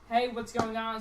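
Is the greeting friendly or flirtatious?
flirtatious. It sounds suggestive and flirtatious.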